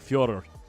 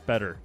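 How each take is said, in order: First: The name is said with a Russian-style pronunciation. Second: The name is said with an English-style pronunciation. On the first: "it's pronounced like uh, I can't pronounce it correctly, but the closest I can get" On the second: "The American or English pronunciation is"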